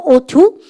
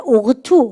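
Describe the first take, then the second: First: "ought to" said as "oh-tu", no g sound; silent GH. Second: "ought to" mispronounced as "og-tu", with a hard g; wrong, G sounded. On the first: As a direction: glide through "ought to" with GH silent, ending on a rise. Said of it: "지에이치 발음 ought to 아니에요". ("ought to"를 g 소리 없이 "오투"로) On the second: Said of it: "발음할 때 ought to 혼납니다". ("ought to"를 "오그투"로 잘못 발음) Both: Shown as a demonstration.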